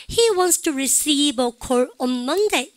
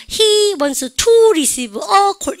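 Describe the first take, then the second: First: "receive", "call", "Monday" brought out, "to", "a" weak; slow model reading, "to" and "on" tucked away; content-word stress. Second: "He", "to", "a" blasted high and loud; wrongly stressed function words. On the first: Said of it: "이렇게 읽는다는 얘기예요". ("receive", "call"은 강하게, "to"는 약하게) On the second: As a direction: comically punch "to" and "a". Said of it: "기능어를 크게 읽을". ("He", "to", "a"만 크고 높게) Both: Shown as a demonstration.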